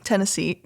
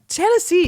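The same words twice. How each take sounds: First: Said in the usual way. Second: Exasperated. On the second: Real, not acted. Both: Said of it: "You got Tennessee on my mind".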